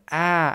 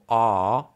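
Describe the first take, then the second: First: The vowel is pushed far forward in the mouth. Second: The vowel is made far back in the mouth. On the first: The speaker calls it right. "portarla più avanti del dovuto" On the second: The speaker calls it wrong. "Se tendiamo a pronunciare la A troppo indietro nella bocca, tipo A"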